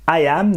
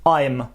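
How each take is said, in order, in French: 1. Deux mots séparés se prononcent, avec la voyelle conservée. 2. Une seule syllabe courte se prononce, avec la voyelle supprimée.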